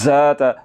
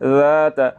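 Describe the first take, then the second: First: The first consonant has a whistling hiss. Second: The first consonant has no whistling hiss. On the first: The speaker calls it wrong. "अगर सीटी की आवाज़ के साथ पढ़ूँ ... जो कि गलत है" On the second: The speaker calls it right. "सीटी की आवाज़ पैदा नहीं होने देनी"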